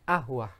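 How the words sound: The word begins with a glottal stop. This is the everyday Egyptian form. "jadi qaf dibaca hamzah"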